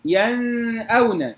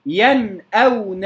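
First: ينأون with the noon hummed long before the hamza; over-held ghunna. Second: ينأون slowly, crisp noon without held hum, then hamza; clear izhar. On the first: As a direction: wrongly drag the nasal noon in ينأون. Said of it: "لا أقول". (مد غنة النون خطأً في ينأون) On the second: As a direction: give ينأون a clean still noon before the hamza. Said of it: "بإظهار النون الساكنة". (إظهار النون في ينأون بلا غنة زائدة) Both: Shown as a demonstration.

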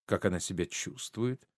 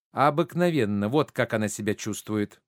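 First: Said in the usual way. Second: Emphatic start, then falling away; curt retort. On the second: Acted. Mother rebuffing a guest's question about her daughter, curt retort. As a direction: throw the question back tartly. Hostess throws his question back.

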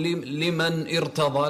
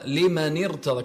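First: لمن ارتضى with the nun left unjoined; wrong unlinked reading. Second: لمن ارتضى joined as "limanirtada"; linking kasra. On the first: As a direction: stop on the n of لمن before ارتضى. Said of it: "ما تقول". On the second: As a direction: link the nun of لمن with an i. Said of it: "كسرت ال-، النون". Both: Shown as a demonstration.

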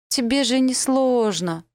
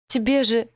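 First: "тебе же" pushed even higher, loud and slow; rising desperate plea. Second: High, loud "Тебе же" with a falling end; desperate plea. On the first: Girl pressing the elf to kill her, higher and slower than before. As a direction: climb higher on the repeat, pleading harder. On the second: Girl pleading with the elf, high and loud, cut short. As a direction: start the plea high and loud, then break off. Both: Acted.

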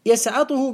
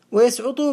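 First: يسعطه said yasʕaṭuhu; fatha on يسعطه. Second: ويسعطه said wa-yasʕuṭu; damma on ويسعطه. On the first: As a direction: open the ʕayn of يسعطه with an a. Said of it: "بالفتح المقيس". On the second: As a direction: round the ʕayn of ويسعطه into a u. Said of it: "بالضم". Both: Shown as a demonstration.

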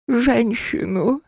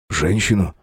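First: Very high, slow, eerie demand; spirit voice. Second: Said in the usual way. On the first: Acted. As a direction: savor the word hungrily.

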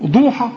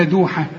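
First: ضوحة with a thick, backed Dad; wrong heavy d. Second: دوحة with a thin, plain dal; correct light d. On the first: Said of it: "تقول لي ايه؟". (ضاد مفخمة في ضوحة) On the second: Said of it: "ولا". (دال مرققة في دوحة) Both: Shown as a demonstration.

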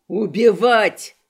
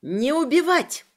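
First: Slow, loud drawn-out cry; loud echoing shout. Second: High, loud piercing scream; shrill shriek. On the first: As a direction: bellow it back like an echo. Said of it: "словно эхом откликнулся Криштоф". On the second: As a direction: screech the order out. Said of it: "пронзительно заверещала я". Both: Acted.

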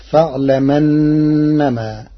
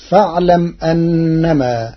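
First: "فاعلمنما" joined up, hamza dropped, slow held nasal n; Warsh reading. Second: Said in the usual way. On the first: Shown as a demonstration. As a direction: glide fa'lam-annama without a glottal stop. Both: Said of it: "بنقل حركة الهمز إلى الساكن قبله".

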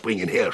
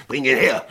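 First: Said in the usual way. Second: Louder, higher command; loud order. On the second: Acted. Sheriff commanding Tom to bring Pitt, loudly. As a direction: bark the order out.

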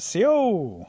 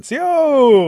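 First: High, louder hail into the dark; calling out a greeting. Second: Very high, long, loud holler; louder call. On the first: Rabbit greeting the unknown creature, calling out high. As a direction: call out, hoping for a reply. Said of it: "so rabbit says it again". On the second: Rabbit trying the greeting on the silent creature, hollering louder. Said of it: "a little bit louder". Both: A narrator's reading.

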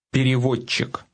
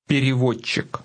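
The two takes are said the same way.

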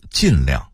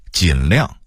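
First: 尽量 as jìnliàng; falling tone on 尽 in 尽量; Beijing reading. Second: Said in the usual way. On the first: Shown as a demonstration. Narrator contrasting word lists, Beijing reading. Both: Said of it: "北京话读尽量".

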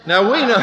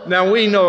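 First: Laughing. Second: Said in the usual way. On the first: Real, not acted.

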